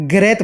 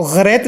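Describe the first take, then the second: First: "ग्रैत" begun with a plain hard g; correct hard g. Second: "ग्रैत" with a throaty gh at the start; wrong ghain sound. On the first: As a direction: say "ग्रैत" with g, not throaty gh. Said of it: "ये गा से बोलना". ("ग्रैत" गा से, ग़ैन से नहीं) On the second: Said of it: "ग्रैत नहीं बोलना है". ("ग्रैत" हलक से, ग़ैन के साथ) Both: Shown as a demonstration.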